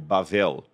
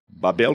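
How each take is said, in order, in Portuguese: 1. A segunda consoante tem som de v. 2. A segunda consoante tem som de b. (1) "ou em hebraico" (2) "como a gente fala em português"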